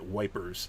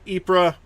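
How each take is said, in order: First: The name sounds like the word 'wipers'. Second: The name does not sound like 'wipers'. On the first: This is how the British say it. "the British do pronounce it wipers" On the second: This is how the speaker personally says it. "I would pronounce it uh"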